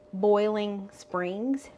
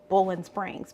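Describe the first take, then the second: First: The first word has an 'oi' vowel, like 'boil'. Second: The first word has an 'o' vowel, like 'bowl'. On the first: "I don't say Boiling Springs" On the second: "I say Bowling Springs because that's just how we talk around here"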